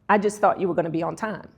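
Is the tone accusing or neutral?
neutral. The tone sounds mild and neutral. No criticism is intended. "That's benign"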